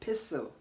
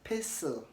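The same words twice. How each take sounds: First: The T sound is silent in the middle. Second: The T sound is silent in the middle.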